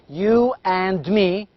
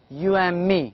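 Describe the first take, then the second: First: The d sound in 'and' is pronounced. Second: The d sound in 'and' is dropped. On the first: The speaker calls it wrong. "So we do not say you and me" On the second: The speaker calls it right. "In everyday English we use you and me"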